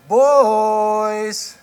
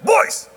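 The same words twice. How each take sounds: First: It is friendly and drawn out. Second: It is short and authoritative. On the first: It is a friendly, inviting call. "more friendly tone, an inviting. The syllables are a little longer" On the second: There is serious business to take care of. "it's a short, authoritative"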